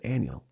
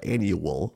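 First: It has no w-like glide in the middle. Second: It has a w-like glide in the middle. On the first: "I said annual" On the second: "there's a U or a W"

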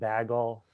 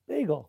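First: The word is said with a Wisconsin accent. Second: The word is said with a New Jersey accent. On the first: This is how someone local says it. The speaker calls it wrong. "Somebody was saying bagel. I thought that's not what that is" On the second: This is how someone from New Jersey says it. The speaker calls it right. "How does a Jersey boy say it?"

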